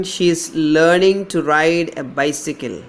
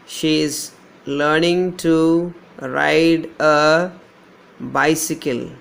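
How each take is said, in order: First: Said in the usual way. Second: Slow and deliberate, every word spaced out; slow dictation. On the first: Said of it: "third one". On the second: Shown as a demonstration. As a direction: dictate it slowly to the class. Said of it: "Here we don't have a diphthong".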